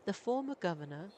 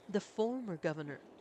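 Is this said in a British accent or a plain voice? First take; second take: British; plain. First: It is said in a British accent. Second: It is said in a plain, unchanged voice. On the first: The speaker calls it right. "British accent" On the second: The speaker calls it wrong.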